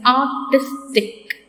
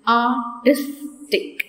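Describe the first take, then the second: First: Said in the usual way. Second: "artistic" drawn out slowly, each syllable apart. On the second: Shown as a demonstration. Teacher to students, splitting "artistic" into syllables slowly. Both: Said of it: "three syllables".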